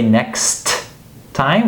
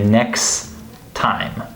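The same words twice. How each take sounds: First: The T at the end of next is fully pronounced. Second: The T at the end of next is dropped. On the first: The speaker calls it wrong. "We don't say next time" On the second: The speaker calls it right. "we say next time"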